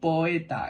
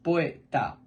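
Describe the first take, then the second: First: The word is said in three syllables. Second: The word is said in two syllables. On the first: "en tres sílabas" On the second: "en dos"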